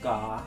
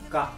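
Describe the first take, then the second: First: The vowel is drawn out and stretched. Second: The vowel is short with a sharp end. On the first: The speaker calls it wrong. "It's not ga" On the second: The speaker calls it right. "a short sound, like ga"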